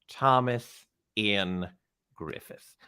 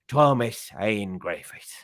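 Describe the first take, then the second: First: It is said in a plain, non-Irish accent. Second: It is said in an Irish accent.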